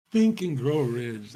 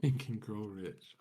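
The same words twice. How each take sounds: First: Slow, louder, dismissive mock of the title; mocking repeat. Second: Said in the usual way. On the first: Shown as a demonstration. Scoffing at a book everyone read, slow and mocking. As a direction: drag the title out with scorn. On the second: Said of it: "What is that even about?".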